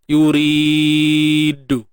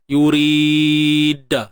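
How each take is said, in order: First: The final d is followed by a u vowel. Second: The final d is followed by an a vowel. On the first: "ataupun baris depan" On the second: "Baris atas contohnya"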